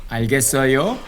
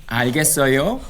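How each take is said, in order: Both takes have the same delivery.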